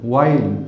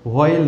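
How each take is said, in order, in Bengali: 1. শব্দটি plain w ধ্বনি দিয়ে শুরু হয়। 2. শব্দটি breathy h ধ্বনি দিয়ে শুরু হয়। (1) "এর উচ্চারণ হচ্ছে ওয়াইল" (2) "হোয়াইল না"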